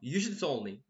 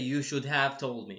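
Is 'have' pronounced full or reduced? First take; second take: reduced; full. First: The word have is reduced and joined to should. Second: The word have is pronounced fully and separately. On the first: The speaker calls it right. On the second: The speaker calls it wrong. "They don't say"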